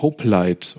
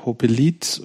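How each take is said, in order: First: Hoplite in two syllables, ending like "light"; English-style pronunciation. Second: Hopelite in three syllables, "ho-pe-leet"; extra E pronounced. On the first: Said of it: "wie man das auf Englisch ausspricht". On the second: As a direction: sound the middle E in Hopelite. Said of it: "das E ist zu viel". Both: Shown as a demonstration.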